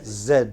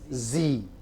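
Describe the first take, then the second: First: The letter is said in a non-American way. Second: The letter is said the American way.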